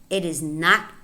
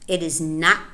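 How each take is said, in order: No difference in how they are said.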